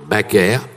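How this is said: The name is pronounced the French way. This is how the name is said now. The speaker calls it right. "le maintenant Baker"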